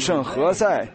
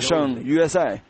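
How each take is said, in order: First: The name is said with an 'h' sound. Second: The name is said with a 'y' sound. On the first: The letter J is read the local Spanish way. The speaker calls it right. "那是圣何塞。" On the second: The letter J is read the way it is in Kentucky. The speaker calls it wrong. "他说圣约塞，而没有这么个地方"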